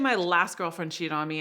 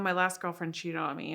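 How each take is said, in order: First: The voice sounds confident and self-assured. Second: The voice sounds insecure and hurt. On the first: The speaker has accepted it and moved on. The speaker calls it right. "listen to the self worth guy" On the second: The speaker is still hurt and afraid it will recur. The speaker calls it wrong. "That's not owning it"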